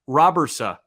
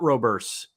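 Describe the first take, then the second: First: The name ends with an 'a' vowel. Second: The name ends with a 'ts' sound. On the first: The speaker calls it right. "I've got the pronunciation according to Baseball Reference" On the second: The speaker calls it wrong. "It's not Roberts"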